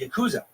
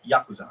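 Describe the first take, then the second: First: It is said with an English-style pronunciation. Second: It is said with a Japanese-style pronunciation. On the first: The speaker calls it wrong. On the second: The speaker calls it right.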